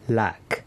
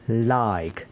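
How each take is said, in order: First: The vowel is a short flat 'a' sound. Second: The vowel glides like the word 'eye'. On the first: The speaker calls it wrong. "some people read like as lack" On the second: The speaker calls it right.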